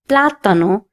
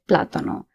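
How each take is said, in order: First: The stress falls on the first syllable. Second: The stress falls on a later syllable. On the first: The speaker calls it right. "I have to stress on this letter and say plátano" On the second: The speaker calls it wrong. "If there was no accent on the A, I would have said plátano"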